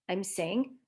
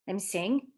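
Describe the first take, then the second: No difference in how they are said.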